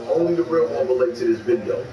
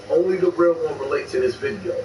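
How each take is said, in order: Both takes have the same delivery.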